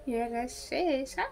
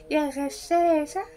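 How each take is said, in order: First: Slow, much softer repeat of the jeer; slow hushed sneer; muttered taunt. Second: Slow, higher sing-song jeer; slow rising taunting call; mock taunt. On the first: Acted. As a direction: mutter it under your breath. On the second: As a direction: drag out the insult teasingly. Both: Teasing the cheater.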